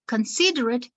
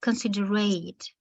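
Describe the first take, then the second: First: "considerate" stressed early, con-SID-er-it, weak ending. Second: "considerate" with the ending as a full "ate", con-sid-er-ATE; stress at the end. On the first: Teacher explains adjective or noun, "considerate" stressed early. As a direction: say "considerate" with a short final "it". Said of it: "the initial syllable". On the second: Teacher explains the verb, "considerate" stressed at the end. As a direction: say "considerate" weighted on the last syllable. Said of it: "the stress goes in the end". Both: Shown as a demonstration.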